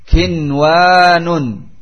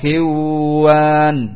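First: The n is pronounced clearly before the w. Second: The n is merged into the following w. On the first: The speaker calls it right. "maka wajib dibaca izhar" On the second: The speaker calls it wrong. "tidak dibaca idgham, tidak dibaca kiwan"

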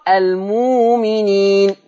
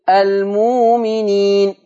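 No difference in how they are said.

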